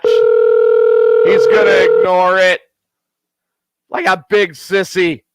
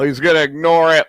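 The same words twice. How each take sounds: First: Louder, slow, each word dragged out; slow, knowing drawl. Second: Said in the usual way. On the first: Real, not acted. Predicting to listeners the friend dodges the call, slow louder drawl. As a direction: stretch it out like a told-you-so.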